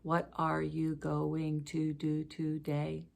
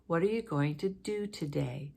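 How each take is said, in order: First: Every syllable has the same length, sounding choppy. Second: Syllables vary in length, with a pitch peak.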